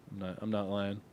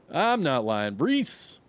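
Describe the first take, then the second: First: Said in the usual way. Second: Louder "I'm not lying", pitch leaping high on "Reese"; insistent denial. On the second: Real, not acted. Insistent repeat of denial to viewer.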